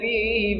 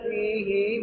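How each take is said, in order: First: The final vowel is said short. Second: The final vowel is lengthened to two counts.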